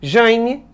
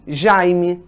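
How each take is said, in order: First: "Jaime" as "jãi-mi", nasal diphthong, rising; nasalized. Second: "Jaime" as open oral "jai-mi", lower; not nasalized. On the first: Teacher shows how some people nasalize, nasalized demo. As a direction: say "Jaime" with the "ai" through the nose. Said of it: "Tem gente que nasaliza". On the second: Teacher shows how other people say it, not nasalized. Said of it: "tem gente que não". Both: Shown as a demonstration.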